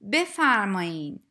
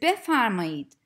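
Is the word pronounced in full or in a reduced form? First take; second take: reduced; full. First: The word is pronounced in a shortened colloquial form. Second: The word is pronounced fully, as written. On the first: "you usually hear native speakers pronounce it as" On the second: "the written form is"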